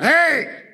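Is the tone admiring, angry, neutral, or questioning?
angry. It is an angry, sharp shout.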